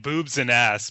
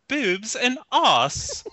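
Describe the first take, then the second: First: Said in the usual way. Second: High, very slow posh British imitation; British accent. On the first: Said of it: "as Americans, we tend to dumb everything down". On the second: American mimics British people, hammed-up posh British accent. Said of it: "you hear British people are like".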